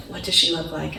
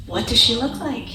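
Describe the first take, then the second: First: Said in the usual way. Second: Eager question. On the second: Retold or imitated. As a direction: ask it bursting with eagerness. Husband eager on the phone.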